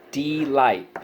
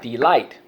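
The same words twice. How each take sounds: First: DEE-LIGHT, both beats drawn out; syllable by syllable. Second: Said in the usual way. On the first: Shown as a demonstration. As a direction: give "Delight" two full, separated syllables. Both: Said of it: "so let's go".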